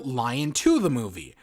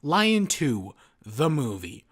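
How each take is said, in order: First: The pause comes after the word 'Lion'. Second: The pause comes after the word 'two'. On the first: Someone is told to go to the movie. "as like, Lion, go to the movie" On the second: It is the title of a sequel film. "I've always read it the, as the former"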